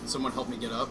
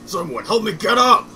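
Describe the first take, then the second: First: It is said in the speaker's ordinary voice. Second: It is said in a put-on character voice.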